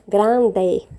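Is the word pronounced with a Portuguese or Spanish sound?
Spanish. It is pronounced with Spanish sounds. The speaker calls it right. "a gente fala grande"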